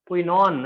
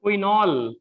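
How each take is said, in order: First: क्विनॉन said with a clear final "ओन"; ending emphasized. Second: क्विनॉल said with a clear final "ऑल"; ending emphasized. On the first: Teacher contrasting compound names for students, ending emphasized in क्विनॉन. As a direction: say क्विनॉन as a careful dictation, ending in ओन. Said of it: "last में क्या लिख रहा है?". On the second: Teacher naming the compound for students, ending emphasized in क्विनॉल. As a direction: say क्विनॉल as a careful dictation, ending in ऑल. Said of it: "last में ऑल". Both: Shown as a demonstration.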